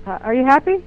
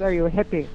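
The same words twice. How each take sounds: First: Imitating him saying "happy" for "hippie", raised and louder; "happy" with a short a where "hippie" was meant; accented "happy". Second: Said in the usual way. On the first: Man asking if she is a hippie, accented "happy". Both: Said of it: "what he was saying is".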